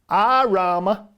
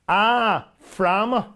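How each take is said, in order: First: The word begins with an r sound. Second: The word begins with an f sound. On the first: The frame belongs to a man. "it's hitting an R sound" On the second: The frame belongs to a woman. "but a frama for her frame"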